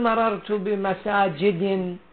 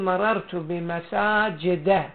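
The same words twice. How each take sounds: First: The last word ends in a kasra with nunation. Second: The last word ends in a plain fatha. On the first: The speaker calls it wrong. "ما تقول مررت بمساجد" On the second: The speaker calls it right. "تقول مررت بمساجد. أولا ما أخذ تنوين، ثانيا لم يأخذ الكسرة"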